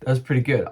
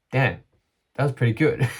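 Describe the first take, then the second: First: Says it through a laugh, quick. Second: Content, proud self-talk; pleased reaction. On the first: Real, not acted. Repeating his reaction to the close race, laughing. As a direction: laugh it out, tickled. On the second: Retold or imitated. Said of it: "I chose to be like".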